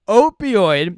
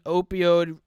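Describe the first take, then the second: First: Opioid said clearly as "opi-oid", loud and deliberate; opioid said right. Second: Opioid said as "opi-ode", ending like "code"; mispronounced opioid. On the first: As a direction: land opioid properly, ending in "oid". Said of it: "There we go". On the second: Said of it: "I can't even say that word". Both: Real, not acted.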